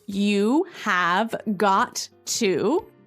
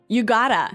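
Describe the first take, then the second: First: Each word is said separately and in full. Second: The words are shortened and run together. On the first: "in the phrase, you have got to" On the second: "we shorten that to say, you gotta"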